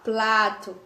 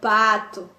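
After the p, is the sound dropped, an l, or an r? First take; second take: l; dropped. First: The word is said with an l after p. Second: The word is said with no sound after p. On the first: "falar plato" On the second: "ou então pato"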